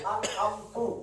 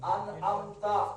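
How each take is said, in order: First: The word ends with a short 'u' vowel. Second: The word ends with a short 'a' vowel. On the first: I bestowed favor. The speaker calls it wrong. "ये सिर्फ एक जबर से पेश हुई है" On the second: You bestowed favor. The speaker calls it right. "अनअमता का क्या माना है? तूने इनाम किया"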